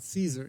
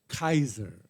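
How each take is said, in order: First: The name begins with a soft S sound. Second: The name begins with a hard K sound. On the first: The speaker calls it wrong. "the word Caesar in in Latin is not Caesar" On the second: The speaker calls it right. "It is Kaiser. The ka, the C is hard"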